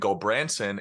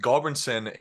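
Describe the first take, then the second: First: The first syllable sounds like 'gul'. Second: The first syllable sounds like 'gal'. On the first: This is how the mother says the name. "is how my mom says it because she says that it sounds prettier" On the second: This is how the father says the name. "is how my dad says it"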